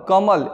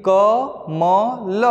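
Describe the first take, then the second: First: Said in the usual way. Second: Very slow, each letter drawn out separately. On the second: Shown as a demonstration. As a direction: say कमल as three long, separate sounds: क, म, ल. Spelling out the word letter by letter.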